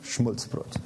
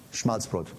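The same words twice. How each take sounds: First: Schmulzbrot with u instead of a, quiet and breathy; classmate's mispronunciation. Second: Schmalzbrot said properly with a clear a; correct pronunciation. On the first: Preacher mimicking his classmate saying Schmulzbrot softly. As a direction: say Schmulzbrot like a boy who only knows Plattdeutsch. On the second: Preacher correcting himself, saying Schmalzbrot the standard way. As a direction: standard German Schmalzbrot, open a. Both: Shown as a demonstration.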